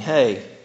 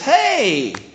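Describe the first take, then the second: First: It sounds casual and routine, without real interest. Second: It sounds excited and warmly glad to see someone.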